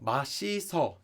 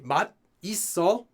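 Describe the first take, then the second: First: The word is said as one linked unit. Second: The word is split into two separated parts. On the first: The speaker calls it right. "normal way would be mashiso" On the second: The speaker calls it wrong. "You could say mat iso, separate it, but no one would do that"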